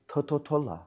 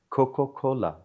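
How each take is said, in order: First: The word begins with a t sound. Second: The word begins with a k sound. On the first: "she will say Thototola" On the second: "say Coca Cola"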